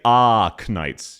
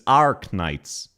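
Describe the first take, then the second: First: The R sound is dropped, with a flat vowel. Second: The R sound is clearly pronounced after the vowel. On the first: This is how Australians say it. "We say Arknights. ... We never say the vowel R" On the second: This is how the other speaker says it. "She pronounces the letter R correctly"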